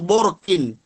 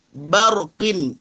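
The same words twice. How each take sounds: First: Borkin with rounded bo, the faulty form; thick ba. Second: Barqin with a light, open ba; thin ba. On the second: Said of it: "jangan sampai menebalkan huruf ba". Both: Shown as a demonstration.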